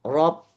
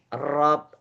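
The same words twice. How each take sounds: First: The r vibrates only once. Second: The r vibrates several times. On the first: The speaker calls it right. "dia tetap roknya getarannya sekali" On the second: The speaker calls it wrong. "bukan rob"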